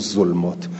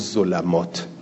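First: The l is followed by no vowel. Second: The l is followed by an a vowel. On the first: "عدلو الی السکون" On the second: "عدلو الی الفت"

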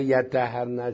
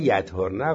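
First: The word is said with doubled consonants. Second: The word is said with single consonants. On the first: Until they perform the ritual bath. "میشه یتطهرن. یتطهرن یعنی غسل بکنن" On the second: Until the bleeding stops. "به معنای انقطاع حیضه"

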